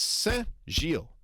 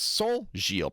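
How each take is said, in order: First: It uses an 'en'-like nasal vowel. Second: It uses an 'on'-like nasal vowel. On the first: The speaker calls it right. "It's the E, the En nasal, not the O N nasal" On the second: The speaker calls it wrong. "that's not how you say it in French"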